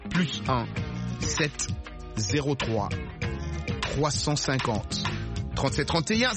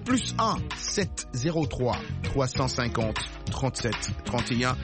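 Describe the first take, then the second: First: The number is read slowly and deliberately. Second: The number is read at normal, quick speed.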